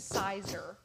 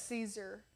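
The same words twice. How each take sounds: First: "Sizer" with a long "eye" sound; mispronunciation. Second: "Caesar" as "SEE-zer", softer; correct pronunciation. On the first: Retold or imitated. Showing how Becca gets the brand wrong, "Sizer" as "SIGH-zer". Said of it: "Becca has trouble saying Caesar". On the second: Shown as a demonstration. Confirming the brand name to co-host, "Caesar" as "SEE-zer". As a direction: say "Caesar" with a long "ee" first. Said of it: "is it Caesar?".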